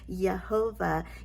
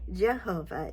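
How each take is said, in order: First: The word begins with a Y sound. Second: The word begins with a J sound. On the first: This is the original Hebrew pronunciation. "It is a Y sound, so it's actually pronounced" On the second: This is the usual American pronunciation. "we here in America typically say"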